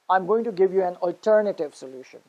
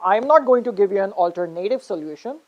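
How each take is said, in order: First: Alternative as al-TER-native, falling at the end; stress on second syllable. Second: Alternative as alter-NAY-tive, rising at the end; stress on third syllable. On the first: Teacher showing the corrected sentence, alternative as al-TER-native. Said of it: "to the second syllable". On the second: Teacher contrasting wrong with right, alternative as alter-NAY-tive. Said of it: "transferred the stress from third". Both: Shown as a demonstration.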